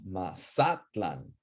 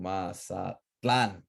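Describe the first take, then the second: First: Slow Mazatlan, ma-SA-tlan; second-to-last stress. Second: Slow Mazatlan, ma-sa-TLAN; last-syllable stress. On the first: Teacher shows class the older form, penultimate stress. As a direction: lean on SA in Mazatlan. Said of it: "Here it's Mazatlan". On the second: Teacher shows class the exception, final stress. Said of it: "we pronounce the last one as strong". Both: Shown as a demonstration.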